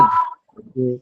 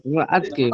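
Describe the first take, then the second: First: আজকে said firmly with every sound held crisp; আজকে pronounced strongly and fully; said hard. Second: আমরা আজকে run together quickly as in casual Bangla; everyday clipped আমরা আজকে; shortcut pronunciation. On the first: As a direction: give আজকে a hard, careful full pronunciation. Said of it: "একটু শক্ত করে বলি". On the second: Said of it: "শর্টকাটে বলে ফেলি". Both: Shown as a demonstration.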